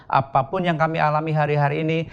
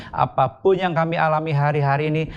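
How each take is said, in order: The two takes are said the same way.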